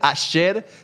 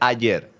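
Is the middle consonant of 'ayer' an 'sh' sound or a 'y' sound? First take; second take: sh sound; y sound. First: The middle consonant sounds like 'sh'. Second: The middle consonant sounds like 'y'. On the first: The speaker calls it wrong. "no se dice ayer" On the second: The speaker calls it right. "se dice ayer"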